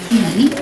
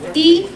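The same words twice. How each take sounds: First: The syllable is said with the third tone. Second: The syllable is said with the first tone.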